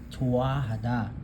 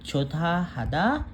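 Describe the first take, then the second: First: No t sound is heard in the middle. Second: A t sound is heard in the middle. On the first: The speaker calls it right. "nag-silent na po si hiyot" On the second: The speaker calls it wrong. "Hindi magiging chotahada"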